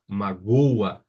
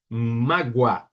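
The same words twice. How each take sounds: First: MAGOA stressed on GO, with O and A split; hiato. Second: MÁGOA stressed on MÁ, ending in a quick gua glide; ditongo. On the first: (hiato, MAGOA com tônica no GO) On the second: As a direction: hit MÁ, glide the end of MÁGOA. (ditongo, MÁGOA com tônica no MÁ) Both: Shown as a demonstration. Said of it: "veja a diferença de pronúncia".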